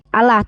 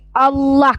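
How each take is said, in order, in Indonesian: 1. Bunyi L-nya pendek dan tunggal. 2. Bunyi L-nya panjang dan dobel. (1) "ini pronunciation-nya bukan lagi Allah" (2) "tapi Allah karena L-nya dua, double"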